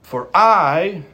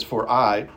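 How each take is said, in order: First: "I" punched higher and louder; emphatic I. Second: Said in the usual way. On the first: Shown as a demonstration. Preacher showing the urgency in Paul's words, emphatic I. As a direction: hit the word "I" hard, raised in pitch and volume. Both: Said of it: "it's a, it's emphatic".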